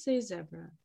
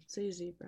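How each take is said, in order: First: "zebra" said ZEB-ra, short E. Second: "zebra" said ZEE-bra, long E. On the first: Correcting a Canadian friend on zebra, short-E ZEB-ra. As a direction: say "zebra" to rhyme its start with "web". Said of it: "Don't say zebra". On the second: Showing a Canadian friend the wrong zebra, long-E ZEE-bra. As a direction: say "zebra" with a first syllable like "zee". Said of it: "'cause you're Canadian". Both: Shown as a demonstration.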